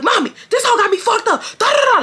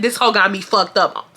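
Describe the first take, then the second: First: High, frantic tattling wail; high-pitched rant breaking into gibberish; mock screaming. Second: Said in the usual way. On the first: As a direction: scream to mom in mock hysteria. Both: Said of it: "Like, I'm screaming".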